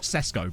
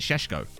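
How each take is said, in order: First: Both consonants are said with an 's' sound. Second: Both consonants are said with a 'sh' sound. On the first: The speaker calls it wrong. "it's definitely not Sesko" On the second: The speaker calls it right. "the accents on the S's change the sound"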